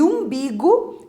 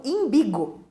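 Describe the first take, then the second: First: Umbigo with a clear initial U; careful U at the start of umbigo; correct pronunciation of umbigo. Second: Imbigo with an I sound at the start; common mispronunciation. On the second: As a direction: say "imbigo", opening on I rather than U. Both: Shown as a demonstration. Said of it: "erradamente pronunciado como imbigo".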